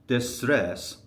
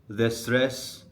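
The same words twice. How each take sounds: The two takes are said the same way.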